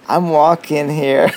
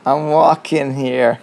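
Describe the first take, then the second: First: Slow, loud mock New York accent. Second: Slow, loud, hammed-up New York accent; a lightly done New Yorker yelling at a car. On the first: Quoting the New Yorker line for his co-host, slow loud New York accent. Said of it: "that's what they say". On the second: Imitating a New Yorker for his co-host, slow loud New York accent. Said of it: "I'm not gonna try my American accent".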